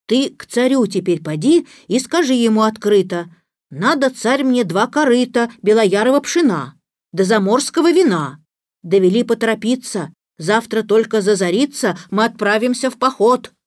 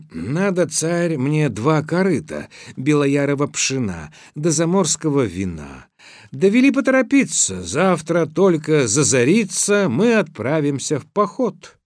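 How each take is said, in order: First: Slightly raised animal adviser giving orders; instructing little horse. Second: Brisk, higher recital of a learned message; forthright Ivan. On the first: Little horse tells Ivan what to ask the tsar, instructing. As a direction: dictate the message step by step. Horse dictates Ivan's words. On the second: Ivan relays his horse's demands to the tsar, brisk and forthright. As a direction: rattle off the request boldly. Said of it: "говорит ему открыто". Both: A narrator's reading.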